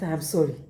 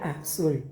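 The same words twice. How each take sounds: First: Gentle apology. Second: Soft, low tender sorry; tender apology. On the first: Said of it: "you will feel happy saying it". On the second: Preacher showing the congregation a tender apology, softly. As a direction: say it softly like to your dear. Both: Shown as a demonstration.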